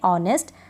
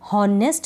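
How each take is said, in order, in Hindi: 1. honest शब्द बिना h की ध्वनि के शुरू होता है। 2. honest शब्द h की ध्वनि से शुरू होता है। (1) "एच इसमें साइलेंट रहता है" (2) "हॉनेस्ट नहीं पढ़ते हैं"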